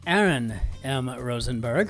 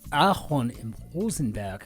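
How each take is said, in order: First: The name is said with an English accent. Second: The name is said with a German accent.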